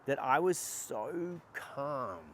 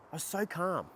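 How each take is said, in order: First: Drawn out, relaxed and slow; calm and slow. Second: Said in the usual way. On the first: Shown as a demonstration. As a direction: let the words melt slowly. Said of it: "I was so rested and in my rest and digest".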